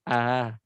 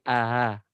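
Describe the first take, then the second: The two takes are said the same way.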